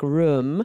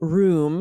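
First: The vowel is short and lax, near a schwa. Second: The vowel is a long, tense oo sound. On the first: "A lot of Americans pronounce it like room" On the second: "I say room. It's like a hard oo, like broom"

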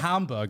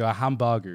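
First: It is said with an American English accent. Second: It is said with a Japanese accent.

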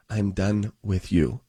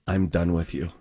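First: It is said slowly and deliberately. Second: It is said at normal speed.

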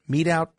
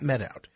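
First: The first word has a long 'ee' vowel. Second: The first word has a short 'e' vowel. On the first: The speaker calls it right. "Meat out, not met out" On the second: The speaker calls it wrong. "not met out"

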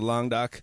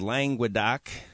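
First: The name is said with a French pronunciation. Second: The name is said with an American pronunciation. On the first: "Languedoc is the preferred French pronunciation" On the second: "or for you Americans"

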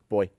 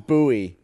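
First: The word is said as one syllable. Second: The word is said as two syllables. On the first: "I don't pronounce it that way" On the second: "someone was like, it's pronounced booy"

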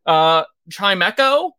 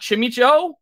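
First: The middle syllable sounds like 'meh'. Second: The middle syllable sounds like 'mih'. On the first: The speaker calls it right. "I just learned a new one just now" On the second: The speaker calls it wrong. "not Chimicho"

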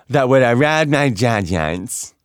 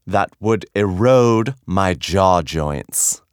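First: It is said quickly and runs together. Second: It is said slowly and carefully.

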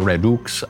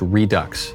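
First: The word is pronounced in a French way. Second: The word is pronounced in an English way. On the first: "French way, maybe the Latin way" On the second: "that's how you pronounce it"

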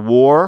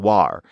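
First: The vowel is a plain 'or' sound. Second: The vowel is a shifted 'ar' sound.

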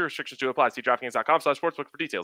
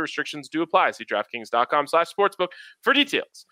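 First: It is read extremely quickly. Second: It is read quickly.

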